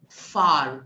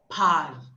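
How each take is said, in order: First: The word begins with an f sound. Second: The word begins with a p sound. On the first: The speaker calls it right. "you will read it as f" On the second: The speaker calls it wrong. "You are reading it as p"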